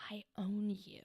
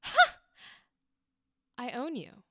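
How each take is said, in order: First: Hushed, whispered, lower delivery; low-key menace demo. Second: Losing it. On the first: Coach imitating the student's unchanged energy, low-key whisper. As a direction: whisper it with contained power. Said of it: "So both times it was a". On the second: Coach showing a changed second take, losing it. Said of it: "Like, lose it". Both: Shown as a demonstration.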